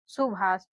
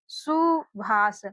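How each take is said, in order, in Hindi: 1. पहला स्वर छोटा बोला जाता है। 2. पहला स्वर खींचकर लंबा बोला जाता है। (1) "ज्यादा खींच करके नहीं पढ़ते हैं" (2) "इसका उच्चारण खींच करके हो रहा है सुभाष"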